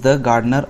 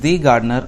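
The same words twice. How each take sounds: First: 'The' is unstressed and said 'thuh'. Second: 'The' is stressed and said 'thee'. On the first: "मैंने यहाँ द gardener कहा क्योंकि मैं यहाँ द पे जोर नहीं दे रहा था" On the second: "मैंने दी गार्डनर कहा"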